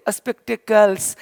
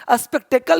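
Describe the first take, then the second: First: स्पेक्टेकल्स said with a clear final s; correct plural form. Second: स्पेक्टेकल said with no final s, ending on the l; the rejected form स्पेक्टेकल, no s sound; wrong singular form. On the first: Teacher giving students the right plural. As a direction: finish स्पेक्टेकल्स on a crisp s. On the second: Teacher naming the wrong word for glasses, plain. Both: Shown as a demonstration. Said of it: "स्पेक्टेकल नहीं बोलते".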